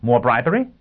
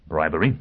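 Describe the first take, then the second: First: Raised, rising question; incredulous query. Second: Said in the usual way. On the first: Acted. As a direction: throw it back higher, in disbelief. Lawyer throws the word back.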